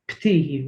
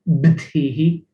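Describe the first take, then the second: First: The word starts with a p sound. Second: The word starts with a b sound. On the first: The speaker calls it right. "ptihi with a P" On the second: The speaker calls it wrong. "You don't really say it btihi"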